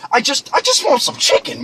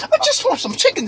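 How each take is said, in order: First: Said in the usual way. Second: High, tearful whine; mock crying. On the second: Customer begs upset cashier for chicken, mock crying. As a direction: plead in a squeaky, about-to-cry voice. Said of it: "I started crying".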